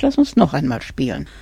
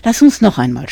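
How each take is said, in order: First: Said in the usual way. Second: Louder pleading request. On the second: A narrator's reading. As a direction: beg for one more game, louder. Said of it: "bat er". (lauter, bittend flehen)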